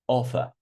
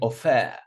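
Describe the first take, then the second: First: The stress is on the first syllable. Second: The stress is on the second syllable. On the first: The speaker calls it right. "Offer on the first syllable" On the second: The speaker calls it wrong. "I'm not saying offer"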